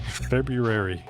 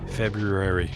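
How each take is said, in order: First: The r after the b is clearly pronounced. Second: The r after the b is clearly pronounced.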